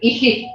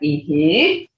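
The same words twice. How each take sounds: First: The vowel sound is kept short. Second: The vowel sound is drawn out long. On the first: It means husband. "that's husband" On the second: It means yes. "that's yes"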